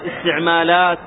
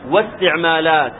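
First: The word begins with a pronounced glottal stop. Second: The opening glottal stop is dropped, linked to 'wa'. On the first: The word stands alone at the start of speech. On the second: Speech comes before the word, so it links on.

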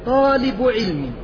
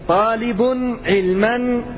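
First: The second word ends without an added -an sound. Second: The second word ends with an added -an sound. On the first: "خفف في اللفظ" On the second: "والله تصلح هكذا"

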